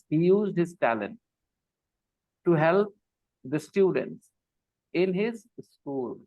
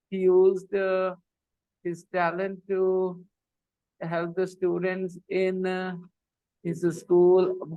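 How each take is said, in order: First: It is read with pauses between sense chunks. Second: It is read with hesitant pauses mid-phrase. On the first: The meaning becomes easier to follow. The speaker calls it right. "there are chunks which make sense" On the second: Nothing is understood of what was said. The speaker calls it wrong. "they stop at the wrong places"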